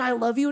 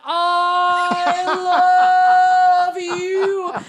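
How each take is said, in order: First: It is said plainly at normal loudness. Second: It is said slowly and drawn out.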